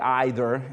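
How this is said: It is said with a British pronunciation. "I know the British say either"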